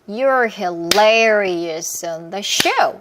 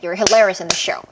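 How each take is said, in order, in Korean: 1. 보통 빠르기로 말해요. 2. 가장 빠르게 말해요.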